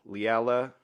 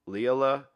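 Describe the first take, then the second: The two takes are said the same way.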